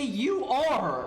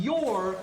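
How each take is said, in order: First: "you are" as two full separate words; uncontracted "you are". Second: "your" run together as one syllable; contracted "your". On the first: Streamer showing what people avoided saying, "you are" fully separated. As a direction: say "you are" in full, higher, each word distinct. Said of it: "people didn't wanna say". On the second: Streamer showing how language develops, "your" as one contracted word. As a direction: say "your" as a single merged word. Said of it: "'cause people didn't wanna say". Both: Shown as a demonstration.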